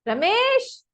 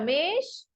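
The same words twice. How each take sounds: First: The name is called somewhat louder. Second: The name is called at normal, quiet loudness.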